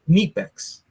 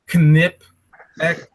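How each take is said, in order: First: The first vowel is long, like 'kneep'. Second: The first vowel is short, like 'knip'. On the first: The speaker calls it right. "It's Kniepex" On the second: The speaker calls it wrong. "It's not Knipex"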